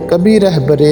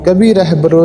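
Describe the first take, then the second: No difference in how they are said.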